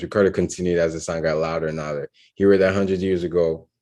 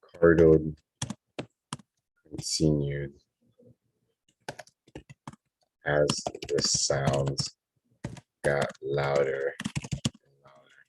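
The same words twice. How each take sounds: First: Very fast, run-on skim of the line; rapid read-back. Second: Word by word with long gaps; slow dictation. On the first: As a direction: race through it in one breath. Skims back over written draft. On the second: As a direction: dictate it as you write it down. Writing the sentence as spoken. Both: Real, not acted.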